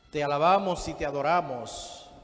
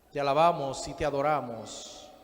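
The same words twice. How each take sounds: Both takes have the same delivery.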